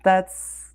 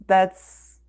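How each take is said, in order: Both takes have the same delivery.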